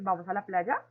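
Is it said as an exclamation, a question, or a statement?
question. It is said with question intonation. It asks whether to go. "segundo lo hicimos de forma de pregunta"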